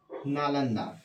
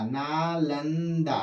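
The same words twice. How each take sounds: First: Said in the usual way. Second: Teacher dwelling slowly on Nalanda; slow drawn-out naming. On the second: Shown as a demonstration. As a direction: stretch Nalanda slowly, every syllable long. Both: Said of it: "आ जाएगा नालंदा".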